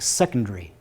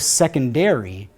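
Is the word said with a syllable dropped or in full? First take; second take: dropped; full. First: A vowel is dropped, leaving fewer syllables. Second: Every vowel is pronounced, giving all syllables. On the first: "there's a vowel at the end that's dropped, and it's more like secondary" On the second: "Instead of secondary"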